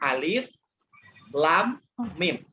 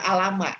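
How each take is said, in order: First: Each letter is said by its full name. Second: The letters are blended into one short word. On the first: The speaker calls it right. "tetapi dibaca alif lam mim" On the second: The speaker calls it wrong. "Tidak kita baca alama"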